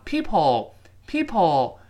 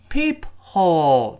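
First: PEEPHOLE said as "people"; linked, H dropped. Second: PEEP, then HOLE with a clear H; separated, H sounded. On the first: Teacher showing how it is read, linked. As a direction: glide from PEEP into "ole" without H. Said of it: "读成people". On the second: Teacher contrasting the written word, syllables apart. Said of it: "那个H被打穿了". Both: Shown as a demonstration.

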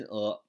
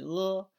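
First: 呃 said short; short vowel. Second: 呃 held long; long vowel. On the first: Teacher shows pupils the short middle vowel, 呃 said briefly. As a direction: cut 呃 off quickly. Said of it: "还有短音呃". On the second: Teacher shows pupils the long middle vowel, 呃 held long. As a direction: draw out 呃 as a steady central vowel. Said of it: "是个长音呃". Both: Shown as a demonstration.

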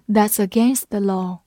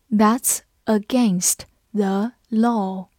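First: Said in the usual way. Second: Slow, word by word with gaps; slow read-along. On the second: Shown as a demonstration. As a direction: read it slowly for learners to follow. (慢慢逐词朗读) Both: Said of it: "我们慢慢来读".

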